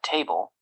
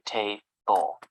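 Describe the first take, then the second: First: Said in the usual way. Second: TABLE as two separate syllables, ta, ble; split into syllables. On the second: Shown as a demonstration. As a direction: pause inside "Table" after ta. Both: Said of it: "to break a spoken word into syllables".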